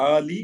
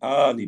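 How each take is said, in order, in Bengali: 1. প্রথম স্বরধ্বনিটি টেনে লম্বা করে বলা হয়। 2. প্রথম স্বরধ্বনিটি টেনে লম্বা করে বলা হয়।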